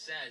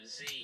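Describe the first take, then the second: First: The letter is pronounced as 'zed'. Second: The letter is pronounced as 'zee'. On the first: "because I have the British debuff, I am forced to pronounce this letter as Z" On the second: "instead of Z"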